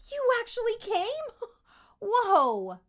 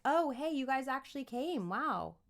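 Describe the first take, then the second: First: High, loud, amazed with a laugh; excited kid. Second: Bored, casual greeting; flat unimpressed kid. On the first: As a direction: burst out in childlike delight. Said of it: "You're gonna be more like". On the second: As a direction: say it like you couldn't care less. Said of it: "You're not gonna be like". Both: Shown as a demonstration.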